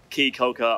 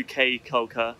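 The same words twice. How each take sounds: First: "Key" said like "kee" in "Key Caulker"; corrected island name. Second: "Cay" said like "kay" in "Cay Caulker"; mispronounced island name. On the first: Host correcting the island's name for viewers, "Key" pronounced "kee". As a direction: say "Key Caulker" with Key rhyming with see. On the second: Host welcoming viewers to the island, mispronounced "Cay" as "kay". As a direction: say "Cay Caulker" with Cay rhyming with day. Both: Real, not acted. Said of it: "I keep saying it wrong".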